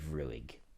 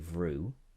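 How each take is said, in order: First: It is said the Ulster or Munster way. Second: It is said the Connacht way, one syllable.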